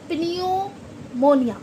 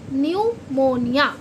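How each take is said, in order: First: The word begins with a sounded P. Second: The word begins with an N sound. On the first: The speaker calls it wrong. "इसे कोई अगर pronunciation करेगा first time पे तो क्या बोलेगा" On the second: The speaker calls it right. "जबकि पी silent है"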